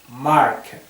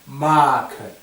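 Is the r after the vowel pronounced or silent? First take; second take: pronounced; silent. First: The r is pronounced, North American style. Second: A long vowel with no r sound, southern English.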